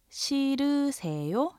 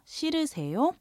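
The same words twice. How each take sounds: First: 싫으세요 with a clear final rise; 끝을 올려서 천천히; polite question. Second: 자연스럽게 빠르게; quicker question. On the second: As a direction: repeat 싫으세요 at natural pace. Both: Shown as a demonstration. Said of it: "two different ways".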